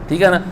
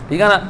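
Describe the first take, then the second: Both takes have the same delivery.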